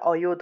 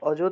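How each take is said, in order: First: The middle consonant sounds like y. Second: The middle consonant sounds like j. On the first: The speaker calls it right. "এটা অয়ুত হবে।" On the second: The speaker calls it wrong. "অযুত না"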